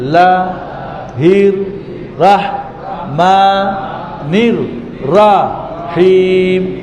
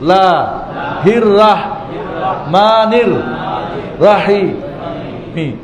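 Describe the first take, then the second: First: It is read slowly, syllable by syllable. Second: It is read at a faster speed. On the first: "ভেঙে ভেঙে এক আস্তে আস্তে।" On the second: "এবার স্পিড বাড়াবেন"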